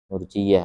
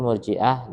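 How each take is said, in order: First: The middle consonant is a y sound. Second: The middle consonant is a glottal stop. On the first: The word comes from roja, meaning hope. "Ada juga yang membaca murjiyah" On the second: The word comes from irja, meaning postponement. "yang masyhur murjiah dengan hamzah"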